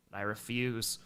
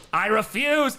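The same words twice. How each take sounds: First: Understated, quiet refusal; low, quiet refusal. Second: Loud, high outburst of refusal; emphatic refusal. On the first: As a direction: say it low and soft, almost to yourself. First take of repeated refusal. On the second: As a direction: burst out with a louder, higher protest. Repeats refusal, now emphatic. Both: Real, not acted.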